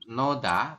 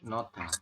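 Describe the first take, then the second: First: The middle consonant is a d sound. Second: The middle consonant is a t sound. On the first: The speaker calls it wrong. "bukan noda" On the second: The speaker calls it right. "tapi nota"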